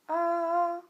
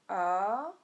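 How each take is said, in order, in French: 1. Le ton reste haut et stable. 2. Le ton descend puis remonte.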